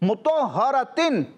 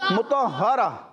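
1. یہ لفظ 'tin' کی آواز پر ختم ہوتا ہے۔ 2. یہ لفظ 'ah' کی آواز پر ختم ہوتا ہے۔

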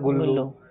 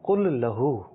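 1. یہ گ سے شروع ہوتا ہے، ایک لفظ میں ملا ہوا۔ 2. یہ ک سے شروع ہوتا ہے، دو الگ الفاظ۔ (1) "کلو کے بجائے بن گیا گلو" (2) "وہ اصل میں اسے بول رہا تھا کل لہو"

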